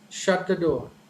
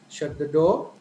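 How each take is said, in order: First: The pitch starts high and falls at the end. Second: The pitch gradually rises toward the end. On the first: It is a command. "When it is a command, ... initially high and finally uh, the tone falls down" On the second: It is a question. "when it comes to question, the tone gradually raises"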